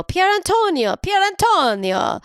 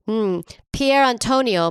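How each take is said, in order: First: Italian accent. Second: Said in the usual way. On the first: Shown as a demonstration. Trying out the name to her co-host, Italian accent. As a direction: roll out "Pier Antonio" with an Italian lilt. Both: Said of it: "I think that was not bad".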